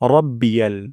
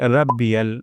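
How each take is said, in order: First: The first r sound is heavy and thick. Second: The first r sound is light and thin. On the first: The speaker calls it right. "র মোটা করে উচ্চারণ করতে হবে" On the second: The speaker calls it wrong. "যেন এমনটি না হয়"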